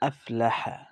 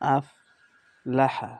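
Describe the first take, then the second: First: The two parts are joined without a break. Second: There is a break between the two parts.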